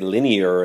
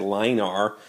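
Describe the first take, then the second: First: The word is said as three syllables, 'lin-ee-er'. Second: The word is said as 'line' followed by the letter R. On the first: The speaker calls it right. "I say linear" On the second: The speaker calls it wrong. "so I don't say line R"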